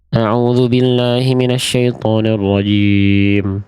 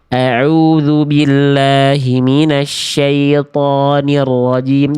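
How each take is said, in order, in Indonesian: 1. Vokalnya diucapkan tidak jelas dan katanya bergumam. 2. Setiap vokal dan konsonan diucapkan dengan jelas. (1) "contoh bacaan yang kesempurnaan harokatnya tidak dijaga" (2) "Jadi artikulasinya jelaskan"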